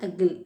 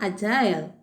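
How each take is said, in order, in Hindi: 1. दूसरा syllable 'jill' जैसा सुनाई देता है। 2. दूसरा सिलेबल 'aisle' से मिलता है। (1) "அமெரிக்கன்ஸ் எப்படி சொல்லுவாங்க" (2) "பிரிட்டிஷ் அப்படின்னா"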